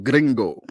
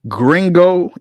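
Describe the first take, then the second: First: It is said with a Spanish accent. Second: It is said with an American English accent. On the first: "as opposed to gringo" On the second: "even my pronunciation of that word is being spoken like a gringo"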